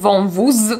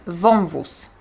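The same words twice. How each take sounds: First: The final consonant is voiced, like z. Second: The final consonant is voiceless, like s. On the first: The speaker calls it wrong. "Nie powiem" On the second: The speaker calls it right. "zamieniamy ją na głoskę bezdźwięczną"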